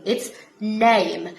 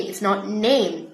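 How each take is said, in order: First: "name" with an I-like diphthong, almost "nime"; Brummie A. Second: "name" with a standard A vowel; "name" said the usual English way; wrong vowel. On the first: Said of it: "sound है I". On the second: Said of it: "It's not A". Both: Shown as a demonstration.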